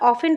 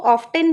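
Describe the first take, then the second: First: The word is said without a t sound. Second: The word is said with a clear t sound. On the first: "British accent होता है हम इसे यहाँ पर ऑफन पढ़ते हैं क्योंकि इसका टी साइलेंट होता है" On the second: "American accent में इसको ऑफ्टेन भी बोलते हैं"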